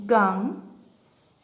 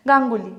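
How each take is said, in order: First: "Ganguly" slowly, broken into three syllables with pauses. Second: Said in the usual way. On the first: Shown as a demonstration. Teacher breaking up own surname to count syllables, syllable by syllable. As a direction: isolate each syllable of "Ganguly". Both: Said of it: "এবার এটাকে ভাঙি".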